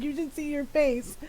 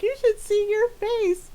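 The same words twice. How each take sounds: First: Said in the usual way. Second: Much higher gleeful gotcha, slow; mocking taunt. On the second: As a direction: crow over the prank. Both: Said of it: "popped off".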